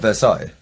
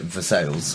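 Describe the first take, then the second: First: The name is said with a French pronunciation. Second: The name is said with an American pronunciation. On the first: "Is it spelled like Versailles?" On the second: "they just pronounce it Versailles because they're American"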